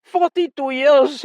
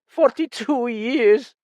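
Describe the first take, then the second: First: High, louder, slow; louder second take; voice rising. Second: High, slow, still restrained; voice rising. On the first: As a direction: let the voice swell. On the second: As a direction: start the rise, held back. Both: Acted. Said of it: "his voice rising".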